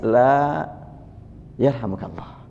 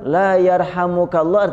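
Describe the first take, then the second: First: There is a short break after 'la'. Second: The words run together without a break. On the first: No, and may God have mercy on you. The speaker calls it right. "ada intonasi" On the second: God does not have mercy on you. The speaker calls it wrong. "kalau disambung"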